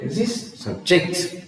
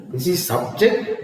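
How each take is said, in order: First: Subject stressed as sub-JECT, slower; "subject" with a short SUB and a strong JECT; stress on second syllable. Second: Subject stressed as SUB-ject; stress on first syllable. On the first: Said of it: "the stress is on the second syllable". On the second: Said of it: "stress on the first syllable". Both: Shown as a demonstration.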